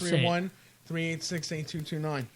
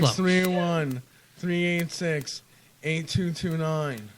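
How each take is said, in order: First: The number is said at normal speed. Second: The number is said slowly.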